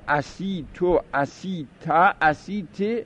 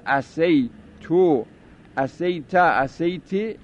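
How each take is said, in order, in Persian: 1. حرف بعد از s، 'i' است. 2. حرف بعد از s، 'a' است. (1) "فتح و کسر را عجز در سین از عصا" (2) "فتح و کسر را عجز در سین از عصا"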